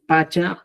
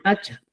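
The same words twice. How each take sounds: First: Pacha with a simple p; unforced p in pacha; pronunciación chanca. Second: Pacha with a popped p; pronunciación cusqueña. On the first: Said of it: "Usted puede utilizar, decir". (pacha con p simple) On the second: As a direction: punch out the p of pacha. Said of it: "o también puede decir". (pacha con p fuerte) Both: Shown as a demonstration.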